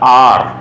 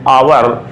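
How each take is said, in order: First: The word is said with one syllable. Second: The word is said with two syllables. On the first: "जो इसका main pronunciation होता है" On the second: "अपन normal जो language है उसमें बोलते हैं"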